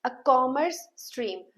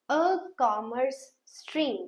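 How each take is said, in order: First: "A commerce stream" drawn out very slowly again; slow model phrase. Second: "A commerce stream" drawn out very slowly; slow model phrase. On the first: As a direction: repeat it slowly. (फिर से धीरे खींचकर बोलना) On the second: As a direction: stretch it out for them. (बहुत धीरे खींचकर बोलना) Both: Shown as a demonstration. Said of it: "I hope I am very clear to you".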